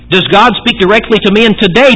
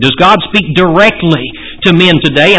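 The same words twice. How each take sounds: First: The word today carries the main stress. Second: The word directly carries the main stress. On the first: The question is about the present, not past times. "I want to put emphasis on the word today" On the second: The question is about speaking directly, not through scripture. "I want to put emphasis on the word directly"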